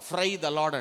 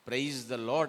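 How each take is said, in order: First: It is said fast with the first word slurred. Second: It is said slowly with every sound clear. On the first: The speaker calls it wrong. "ఆ స్పీడ్లో ఫ్రై the lord" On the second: The speaker calls it right. "ప్రైజ్ the lord అని చెప్తున్నాం కదా"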